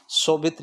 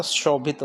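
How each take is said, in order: First: शोभित with 's' in place of 'sh'; wrong initial sound. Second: शोभित with an opening 'sh'; correct 'sh' sound. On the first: Teacher repeating the error, शोभित with a plain 's'. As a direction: say शोभित as so-bhit. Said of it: "नहीं होता". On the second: Teacher answering the class question, शोभित with a clear 'sh'. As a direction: say शोभित as sho-bhit. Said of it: "क्या होता". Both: Shown as a demonstration.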